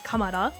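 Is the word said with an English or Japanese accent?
Japanese. It is said with a Japanese accent.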